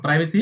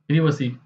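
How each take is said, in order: First: It is said in an American accent, 'prive-acy'. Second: It is said in a British accent, 'privvacy'.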